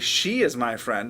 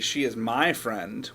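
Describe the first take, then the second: First: The word "she" carries the emphasis. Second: The word "my" carries the emphasis. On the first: It is her and not another person. "I'm telling you that it's not some other person" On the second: She is not your friend. "what I mean is she's not your friend"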